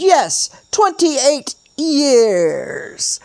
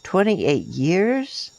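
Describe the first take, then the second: First: High, loud, drawn-out TWENTY-EIGHT YEARS, falling; YEARS stretched out long and sliding down; emphatic confirmation. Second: TWENTY-EIGHT YEARS drawn out, rising at the end; questioning lilt climbing through "years"; echoed question. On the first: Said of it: "The man nodded and continued". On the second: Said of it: "echoed the statement with the question". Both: A narrator's reading.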